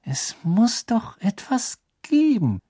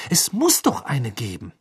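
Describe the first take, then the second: First: Gehauchtes, gedehntes Grübeln in hoher Lage; murmelnd. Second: Insistent, voiced at normal volume; beharrlich. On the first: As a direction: murmle es langsam und hoch vor dich hin. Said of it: "murmelte Hermine". (murmelnd, hoch und gedehnt) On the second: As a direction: insist on it in a clear voice, without murmuring. Hermine beharrt, zweite Fassung. (beharrlich, mit klarer Stimme) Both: A narrator's reading.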